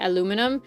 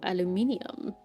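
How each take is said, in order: First: It is said with four syllables. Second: It is said with five syllables. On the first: This is the speaker's usual way of saying it. "after I say aluminum" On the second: This is how people from another area say it. "some people say aluminium"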